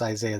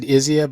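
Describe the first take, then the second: First: The name is said in the full 'Isaiah' form. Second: The name is said in a shortened 'Izia' form. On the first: The speaker calls it right. "It probably is Isaiah" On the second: The speaker calls it wrong. "I've always said Izia"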